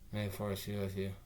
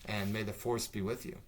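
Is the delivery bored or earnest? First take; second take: bored; earnest. First: It is said flatly, with no effort or energy. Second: It is said in an ordinary, earnest way.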